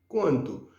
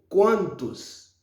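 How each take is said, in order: First: The word ends without an S sound. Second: The word ends with a clear S sound. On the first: The speaker calls it wrong. "yon erreur haïtien toujours fait" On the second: The speaker calls it right. "toujours faire le son S prononcé"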